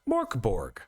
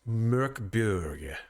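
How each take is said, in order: First: The name is said with English-style vowels. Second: The name is said with Swedish-style vowels. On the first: The speaker calls it wrong. "most people who are you know English speakers will look at it and go Morkborg" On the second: The speaker calls it right. "as a Swede it is actually pronounced Mörkburg"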